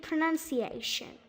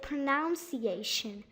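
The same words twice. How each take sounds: First: The second syllable sounds like 'nun'. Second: The second syllable sounds like 'noun'. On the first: The speaker calls it right. "it should be pronunciation" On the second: The speaker calls it wrong. "they kind of say pronunciation"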